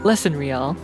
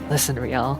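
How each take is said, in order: First: It is said in a normal voice. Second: It is said in an old man's voice. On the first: The speaker calls it wrong. "No, no" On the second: The speaker calls it right. "I need to do it in an old man voice"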